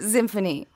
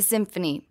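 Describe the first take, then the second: First: The word begins with a z sound. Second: The word begins with an s sound. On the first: This is how one particular man says it. "but he pronounces it Zimphony" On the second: This is the usual way to say it. "It's just the symphony"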